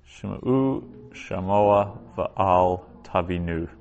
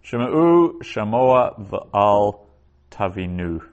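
First: "Shema'u shamoa v'al tavinu" repeated slowly in one smooth run; teacher repeating "Shema'u shamoa v'al tavinu". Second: "Shema'u shamoa v'al tavinu" read slowly, "Shema'u" raised and louder; first careful reading of "Shema'u shamoa v'al tavinu"; slow Hebrew reading. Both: Shown as a demonstration. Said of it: "quoted in the New Testament".

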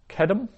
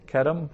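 First: Kedem said much higher with a rise; emphatic citation. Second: Said in the usual way. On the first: Shown as a demonstration. Teacher modelling Kedem for Hebrew students, high rising citation. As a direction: float Kedem up high as the word to learn. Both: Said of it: "teacher drills Hebrew vocabulary".

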